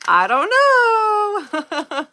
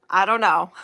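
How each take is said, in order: First: I don't know stretched slow, much higher and louder; drawn-out high I don't know. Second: Said in the usual way. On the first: Real, not acted. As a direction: sing out a long, high, giggly I don't know. Repeats shrug, then drawls it.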